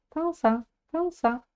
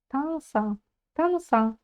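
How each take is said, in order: The two takes are said the same way.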